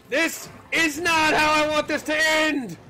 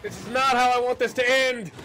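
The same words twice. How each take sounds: First: Drawn-out desperate wail. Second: Desperate shout. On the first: Repeats slower, higher. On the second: Desperate in fight. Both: Real, not acted.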